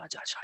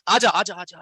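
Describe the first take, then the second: First: "आजा" बहुत धीमा, दूर से लौटती गूँज जैसा; पुकार की गूँज की तरह "आजा" फीका पड़ता हुआ. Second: पहाड़ से खुली पुकार, "आजा" खींचकर; दूर तक आवाज़ भेजते हुए "आजा" पुकारो; पहाड़ पर पुकारना. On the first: (पहाड़ से लौटती बहुत धीमी गूँज) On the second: (पहाड़ पर खड़े होकर पुकारते हुए) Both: Shown as a demonstration. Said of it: "ऐसे एक होता है ना".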